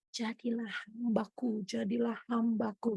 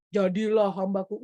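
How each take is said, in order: First: Soft, slow, nearly inaudible call; faint gentle voice. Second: Deeper, commanding call from above; booming voice of God. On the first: Preacher showing God's true voice, soft and slow. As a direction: barely breathe it out, slow and gentle. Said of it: "tapi halus tipis, nyaris tak terdengar". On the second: A hint of a booming God, shown as the wrong way. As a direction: proclaim it like a thundering god. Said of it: "Bukan kayak". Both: Shown as a demonstration.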